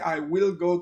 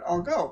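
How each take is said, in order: First: I will is said as two full words. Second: I will is shortened to one syllable. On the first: The speaker calls it wrong. "I don't say I will go to the party" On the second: The speaker calls it right. "but I'll go"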